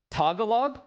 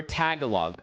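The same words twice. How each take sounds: First: "Tagalog" as TAH-guh-log, rising questioningly; open TAH pronunciation. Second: "Tagalog" as TAG-uh-log, falling; short-A TAG pronunciation. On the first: Streamer asking chat how it's said, "Tagalog" with open TAH. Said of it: "is it ta or is it ta?". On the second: Streamer offering chat the other option, "Tagalog" with flat-A TAG. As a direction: begin "Tagalog" with TAG, as in name tag. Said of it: "or is it ta?". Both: Shown as a demonstration.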